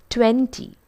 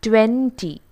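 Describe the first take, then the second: Both takes have the same delivery.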